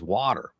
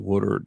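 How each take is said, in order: First: It is said in a general American accent. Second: It is said in a Philadelphia accent. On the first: "everybody else says water" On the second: "that's a Philly boy"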